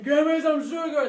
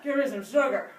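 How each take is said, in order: First: Loud greedy monster voice; greedy plaque demand. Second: Weaker plaque demand. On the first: Plaque begging for sugar, loud greedy demand. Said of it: "instead of saying". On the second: Weakened plaque asking for sugar, milder demand. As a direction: ask with less force. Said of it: "the plaque would say". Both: Acted.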